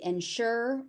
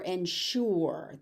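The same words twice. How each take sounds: First: Ensure as "en-SHER"; first variant. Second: Ensure as "en-SHOO-er", with an oo vowel; second variant. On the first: Teacher offering one option, ensure said "en-sher". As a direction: rhyme the end of "ensure" with "her". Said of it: "it could be ensure or". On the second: Teacher offering the other option, ensure said "en-shoor". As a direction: put an oo in the end of "ensure". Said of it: "or ensure". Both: Shown as a demonstration.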